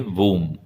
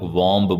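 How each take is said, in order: First: The b sound is silent. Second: The b sound is pronounced. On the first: The speaker calls it right. "सही बोलेंगे वूम" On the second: The speaker calls it wrong. "काफी लोग वॉम्ब बोलते हैं, पर ये गलत है"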